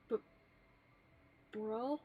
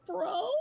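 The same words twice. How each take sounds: First: Mild stammered bro, lightly voiced; a hint of a shy boy tripping on bro; stammering Haruto. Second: Bro jumps higher with a little crack. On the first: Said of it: "Haruto would stammer". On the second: Pretend. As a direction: crack your voice upward on Bro. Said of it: "The little voice crack in there".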